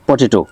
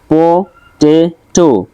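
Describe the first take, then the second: First: Said in the usual way. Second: পটেটো slowly split as প, টে, টো; three drawn-out beats on পটেটো; syllable by syllable. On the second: Shown as a demonstration. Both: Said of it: "এখানে তিনটা দেওয়া আছে".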